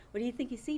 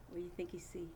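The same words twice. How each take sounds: First: Said in the usual way. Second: Whisper. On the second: Acted. Teacher teases class in whisper.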